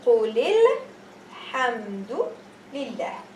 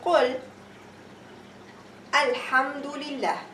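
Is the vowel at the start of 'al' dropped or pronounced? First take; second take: dropped; pronounced. First: The words run together and the alif is dropped. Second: The words are separated and the alif is pronounced. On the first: The words are read continuously. "I won't pronounce this alif" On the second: The reading is not continuous. "I will pronounce Hamza al-Wasl"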